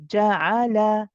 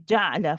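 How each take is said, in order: First: It is steady, each syllable given equal time. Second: It is rushed, the middle vowel swallowed. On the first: The speaker calls it right. "Keep it steady... each letter the same time" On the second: The speaker calls it wrong. "people rush this... sounds like the ain has a sukoon"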